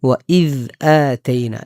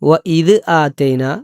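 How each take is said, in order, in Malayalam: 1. dh ശബ്ദം ചെറിയൊരു ശ്വാസത്തോടെ വിട്ടുകൊണ്ടാണ് പറയുന്നത്. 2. dh ശബ്ദം പ്രതിധ്വനിയോടെ മുഴക്കിയാണ് പറയുന്നത്. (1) "ചെറിയൊരു കാറ്റോടുകൂടെ" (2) "പറയുന്ന ചിലരെ കാണാറുണ്ട്. വഇദ് കൽക്കലയുടെ അക്ഷരമല്ല, മുഴക്കരുത്"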